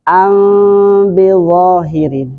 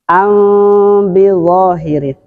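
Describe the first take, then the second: Both takes have the same delivery.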